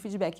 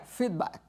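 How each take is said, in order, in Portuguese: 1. É dito com pronúncia do português brasileiro. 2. É dito com pronúncia inglesa. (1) "Mas eu sou brasileira, vamos de feedback mesmo" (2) "seria feedback, a pronúncia correta"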